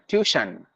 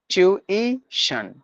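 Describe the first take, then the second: First: One of the word's sounds is left out. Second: All three of the word's sounds are said. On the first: The speaker calls it wrong. "the word we say tuition" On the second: The speaker calls it right. "but it has to be tuition. There are three sounds in this word"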